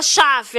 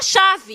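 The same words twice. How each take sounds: First: "chave" with the v hardened towards an f; "chave" with a devoiced, foreign-sounding ending; wrong password pronunciation. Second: Said in the usual way. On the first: Shown as a demonstration. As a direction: say "chave" as an accented "chaf". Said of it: "A gente não pode falar". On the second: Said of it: "a gente tem que falar".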